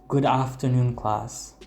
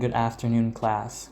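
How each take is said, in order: First: The vowel in class is a long open ah. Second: The vowel in class is a short flat a. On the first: "like with an ah" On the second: "rather than"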